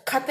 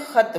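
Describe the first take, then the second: First: Said in the usual way. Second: खत with a rasping throat kh like German ch; खत said as khat, friction at the back; nukta ख. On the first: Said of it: "खत नहीं बोलते हैं". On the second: Shown as a demonstration. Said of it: "क्या बोलते हैं? खत बोलते हैं". (ख़त को घर्षण के साथ बोलें)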